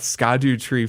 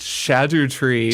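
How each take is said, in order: First: The name begins with an 'sk' sound. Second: The name begins with an 'sh' sound. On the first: The speaker calls it wrong. "it's not Skadu tree" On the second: The speaker calls it right. "pronounced Shadu tree"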